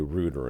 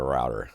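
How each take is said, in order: First: It is said the non-American way. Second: It is said the American way. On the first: This is how people outside the USA say it. The speaker calls it wrong. "All the people who say router" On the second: This is how people in the USA say it. The speaker calls it right. "instead of router"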